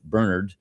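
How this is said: The name is pronounced the Irish way. "The Irish may pronounce it Bernard"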